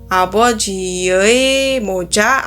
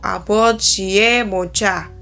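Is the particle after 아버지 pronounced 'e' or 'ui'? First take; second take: ui; e. First: The particle 의 is pronounced as 'ui'. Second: The particle 의 is pronounced as 'e'. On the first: "bisa ei" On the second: "atau bisa e"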